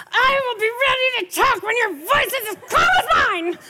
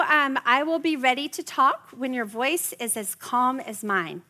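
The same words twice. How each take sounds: First: Shouted high and loud, ironic; yelled calm line. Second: Said in the usual way. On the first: Shown as a demonstration. Mom yelling calm words at a screaming teen. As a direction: yell the calm sentence, mock furious. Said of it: "you can't go". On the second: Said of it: "those are magical words".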